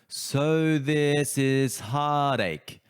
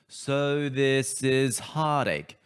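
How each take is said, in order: The two takes are said the same way.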